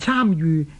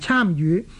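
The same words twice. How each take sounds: First: The word 與 is read in the departing tone. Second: The word 與 is read in the rising tone. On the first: The speaker calls it right. "正確嘅读音" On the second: The speaker calls it wrong. "而唔係"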